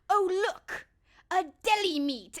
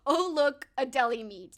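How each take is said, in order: First: Quoting Heavyweights. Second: Quoting Heavyweights again. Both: Retold or imitated. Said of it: "the pause and the way he says it".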